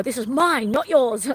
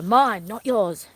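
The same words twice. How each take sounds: First: Firm telling-off to dogs. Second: Firm, drawn out. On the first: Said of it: "I go". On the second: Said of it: "one of the ways to show dogs". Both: Shown as a demonstration.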